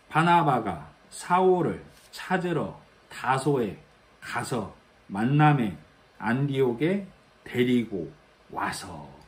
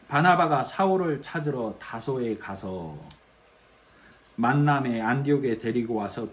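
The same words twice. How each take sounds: First: The sentence is broken into chunks by pauses. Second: The sentence is read in one continuous flow.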